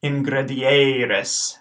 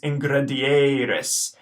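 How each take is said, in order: First: "ingredieres" drawn out syllable by syllable; slow echo of "ingredieres"; slow Latin pronunciation. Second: "ingredieres" said at normal pace; first take of "ingredieres"; modelled Latin word. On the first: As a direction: slowly model "ingredieres". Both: Shown as a demonstration. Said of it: "the second E is long".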